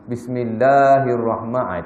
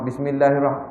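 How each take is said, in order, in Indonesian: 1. Vokal panjang dibaca panjang sepenuhnya. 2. Vokal panjang dibaca pendek. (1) "itu wajib, itu panjang yang asal" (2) "tak ada, tak panjang"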